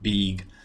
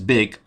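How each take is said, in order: First: The vowel has a Russian-accented quality. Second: The vowel has a native-like English quality. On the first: The speaker calls it wrong. "I forget about it. And, and I say something like big" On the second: The speaker calls it right. "I know that big sound is big"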